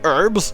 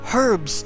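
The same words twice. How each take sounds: First: The word is said in an American way. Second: The word is said in a non-American way. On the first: The speaker calls it wrong. "not herbs ... American English" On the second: The speaker calls it right. "Herbs, damn it, herbs"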